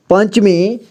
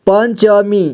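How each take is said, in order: First: Said in the usual way. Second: पंचमी spelled out as pan-cha-mee; syllable-by-syllable reading. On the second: Shown as a demonstration. Teacher showing learners how to join letters, पंचमी as pan-cha-mee. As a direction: give पंचमी a full middle vowel. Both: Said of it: "जोड़ जोड़ करके पढ़ना है".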